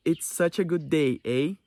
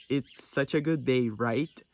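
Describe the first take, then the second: First: "It's such a good day, eh?" said slowly with a rising "eh" tag; a slow Canadian line ending on a questioning "eh". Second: "It's such a good day, right?" said slowly, rising on "right"; a slow American line with a rising "right?" tag. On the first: Teacher showing students how Canadians end sentences, slow with a rising eh. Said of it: "Por exemplo". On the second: Teacher showing students the American version, slow with a rising right. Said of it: "Eles já usam mais o "right". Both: Shown as a demonstration.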